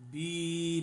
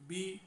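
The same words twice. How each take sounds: First: The vowel is drawn out long. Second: The vowel is kept short. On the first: The speaker calls it wrong. "यहाँ हम इसको बी नहीं कहेंगे" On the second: The speaker calls it right. "इसको हम खींचेंगे नहीं, प्रलॉन्ग नहीं करेंगे"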